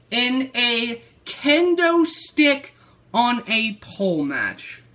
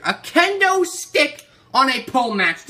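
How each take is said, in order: First: Said in the usual way. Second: Louder and higher, repeating in disbelief; incredulous outrage. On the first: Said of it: "Do you hear me right here?". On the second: Real, not acted. Ranting to viewers about the kendo stick match, incredulous and loud. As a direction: hammer the repeat like you can't believe it.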